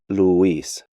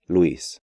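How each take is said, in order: First: The u and i form two syllables. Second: The u and i form one syllable. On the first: The speaker calls it wrong. "break these diphthongs up" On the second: The speaker calls it right. "when they should be pronounced more like"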